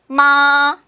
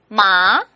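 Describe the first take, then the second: First: The pitch stays high and level. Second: The pitch rises from middle to high. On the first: It means mother. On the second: It means hemp.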